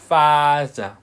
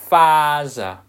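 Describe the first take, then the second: Both takes have the same delivery.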